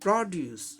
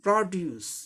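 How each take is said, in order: Both takes have the same delivery.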